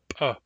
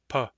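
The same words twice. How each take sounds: First: The p is released forcefully. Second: The p is released gently. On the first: "The hard P sounds like ... the hard P is a little more forceful" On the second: "The plain P sounds like"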